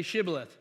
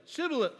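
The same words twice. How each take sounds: First: Shibboleth said with a clear "sh"; correct pronunciation. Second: Shibboleth said as "Sibboleth", higher; higher-pitched botched Shibboleth, starting on "s"; mispronunciation. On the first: Shown as a demonstration. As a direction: say Shibboleth properly, opening on "sh". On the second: Acted. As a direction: get Shibboleth wrong with an "s" for the "sh". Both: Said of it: "he couldn't pronounce it right".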